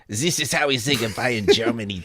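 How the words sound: It is said in an exaggerated German accent.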